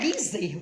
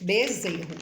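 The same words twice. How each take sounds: First: The first vowel sounds like 'ee'. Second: The first vowel sounds like 'eh'. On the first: The speaker calls it wrong. "não é bezerro, tem gente que fala bi" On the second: The speaker calls it right. "aqui ele tem um som do E"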